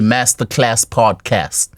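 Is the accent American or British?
American. It is said in an American English accent. "In America, they say"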